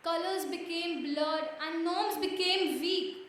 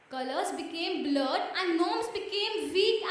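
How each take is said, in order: Both takes have the same delivery.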